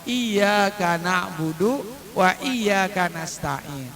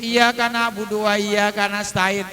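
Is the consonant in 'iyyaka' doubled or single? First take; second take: doubled; single. First: The y sound is doubled and pressed. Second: The y sound is single and light. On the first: Worship and help are sought from God alone. The speaker calls it right. "Maka dibacanya ada penekanan" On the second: Worship and help are sought from the sun. The speaker calls it wrong. "nggak pakai tasdid"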